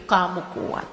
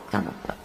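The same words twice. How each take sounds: First: Said in the usual way. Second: Very soft unvoiced kamu kuat; whispered echo. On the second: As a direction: let it fade into a whisper. (bisikan pelan)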